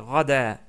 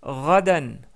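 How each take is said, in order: First: The word ends on a vowel, without n. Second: The word ends with an n sound.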